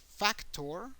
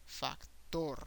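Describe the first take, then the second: First: "factor" as FAC-tor, higher and rising; English "factor", first syllable stressed. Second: "Factor" as fac-TOR, Spanish style; Spanish "Factor" with a long final syllable; stress on last syllable. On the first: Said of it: "an emphasis in English in the first syllable". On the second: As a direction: hold back FAC, land on TOR. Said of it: "make an emphasis in the last syllable". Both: Shown as a demonstration.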